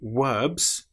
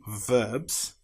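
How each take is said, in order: First: It begins with a W sound. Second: It begins with a V sound. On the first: The speaker calls it wrong. "If you find yourself saying wowl or verbs instead of verbs" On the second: The speaker calls it right. "instead of verbs"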